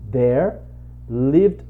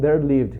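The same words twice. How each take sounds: First: There is a pause after 'there'. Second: There is no pause after 'there'. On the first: It means they lived in that place. "ele vai dar uma parada no there" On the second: It is the story opening meaning once upon a time. "Não confunda com there lived"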